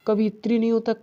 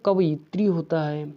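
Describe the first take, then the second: First: कवित्री without the य; wrong form. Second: कवयित्री with the य; correct form. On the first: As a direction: says कवित्री, skipping य, raised. (गलत रूप: कवित्री) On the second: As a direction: says कवयित्री, य clearly sounded. (सही रूप: कवयित्री) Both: Shown as a demonstration.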